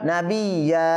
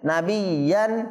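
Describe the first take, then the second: First: The word ends with a drawn-out a vowel. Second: The word ends with an n sound. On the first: The reader stops on this word. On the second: The reading continues past this word.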